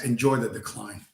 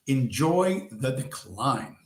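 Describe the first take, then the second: First: Said in the usual way. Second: Half the speed, drawn out; slow catchphrase. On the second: Real, not acted. Signing off a rant to his viewers, slowly. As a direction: savour every word.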